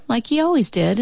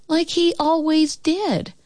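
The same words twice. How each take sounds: First: Said in the usual way. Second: "like he always did" high and slow; drawn-out refrain. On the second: A narrator's reading. Child recounting dad's dull routine, "like he always did" high and drawn out. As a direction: stretch "like he always did" out, pitched up.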